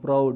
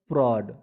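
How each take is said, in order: First: The vowel sounds like the one in out. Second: The vowel sounds like the one in odd. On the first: The speaker calls it wrong. "It's not proud" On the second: The speaker calls it right. "it's a prod"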